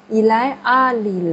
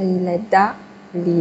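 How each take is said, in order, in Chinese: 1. à前面听不到t音。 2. 一个t音把est和à连诵起来。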